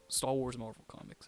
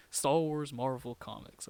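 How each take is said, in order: First: Said in the usual way. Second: "Star Wars Marvel comics" said slowly, each word weighed; slow and deliberate, tasting how strange "Star Wars Marvel comics" sounds; savoring odd phrase. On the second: Shown as a demonstration. Fan repeating a phrase he finds weird, slow and deliberate. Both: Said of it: "That's so weird to say".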